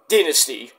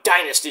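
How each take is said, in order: First: It is said the Australian way. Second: It is said a non-Australian way. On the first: "if you're from Australia, you call it Dynasty" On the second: "not Dynasty"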